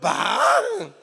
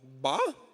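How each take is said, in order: First: The word sounds thrilled and excited. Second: The word sounds let down and disappointed. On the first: The news is great. "pô, Botafogo é campeão" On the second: The news is bad. "o Botafogo empatou de novo"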